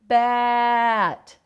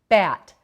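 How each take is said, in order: First: The word is stretched out slowly. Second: The word is said at normal speed. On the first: "then say it slowly" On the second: "say a word"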